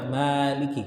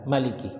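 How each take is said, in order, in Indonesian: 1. Vokal pertama dibaca panjang. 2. Vokal pertama dibaca pendek. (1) "Kalau kita biasanya baca Maliki" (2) "Tapi ada riwayat Maliki"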